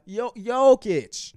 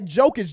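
First: The name begins with a Y sound. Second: The name begins with a J sound. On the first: The speaker calls it right. "It's a yeah" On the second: The speaker calls it wrong. "not a juh"

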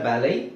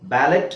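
First: The word ends without any t sound. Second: The word ends with a sounded t. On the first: The speaker calls it right. "ಟಿ silent" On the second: The speaker calls it wrong. "ಬ್ಯಾಲೆಟ್ ಅಂತ ಹೇಳಂಗಿಲ್ಲ"

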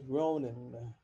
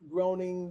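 First: The final g sound is dropped. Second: The ending keeps its final g sound.

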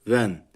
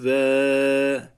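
First: The word ends with an n sound. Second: The word ends in a lengthened vowel, no n. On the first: The reading flows on without stopping. "Normalde ven değil mi?" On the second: The reading stops at a pause mark. "1 saniye uzatıp duruyoruz. ... ve deyip duruyoruz"

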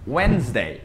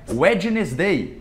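First: The d in the middle is silent. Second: The d in the middle is pronounced. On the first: The speaker calls it right. "É como se esse D não existisse" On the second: The speaker calls it wrong. "Que não é Wednesday"

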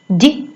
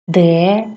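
First: A bare consonant sound with no vowel after it. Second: A letter name with a vowel after the consonant. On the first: It names the sound heard in the word. "Давайте спочатку звуки, які ми чуємо" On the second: It names the written letter. "А тепер букви"

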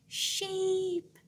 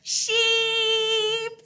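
First: The word is said very quietly. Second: The word is said very loudly.

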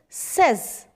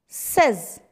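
Both takes have the same delivery.

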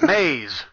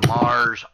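First: The name sounds like 'Maze', with a z. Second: The name sounds like 'Mars', with an r. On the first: The speaker calls it right. "It is pronounced Maze" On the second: The speaker calls it wrong. "now I'm even saying it wrong"

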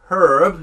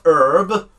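First: The word begins with a clear h sound. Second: The word begins without any h sound. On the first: The speaker calls it right. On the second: The speaker calls it wrong.

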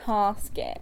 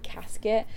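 First: The word is said the posh southern way. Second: The word is said the local way. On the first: This is how a posh southerner says it. "I would say casket because I'm a posh little southerner" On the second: This is how people in the area say it. "I live in an area where people would say casket"

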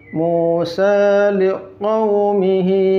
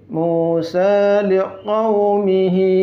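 No difference in how they are said.

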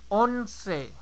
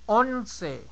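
The two takes are said the same way.

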